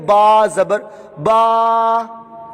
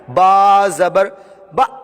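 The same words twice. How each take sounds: First: The vowel is drawn out long. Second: The syllable is cut off with a jolt. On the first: "ये अब इसको खींच रहे हैं, ये गलत हो गया" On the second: "ये गलत है, ये झटका देकर पढ़ रहे हैं"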